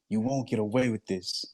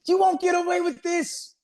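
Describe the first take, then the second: First: It is said sadly in a lower tone. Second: It is said happily and playfully.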